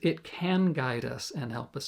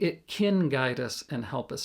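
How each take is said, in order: First: The word 'can' has a clear open vowel. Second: The word 'can' sounds like 'kin'. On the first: The speaker calls it right. "So the proper way to say is" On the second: The speaker calls it wrong. "Americans often will sing, ... not can, but kin"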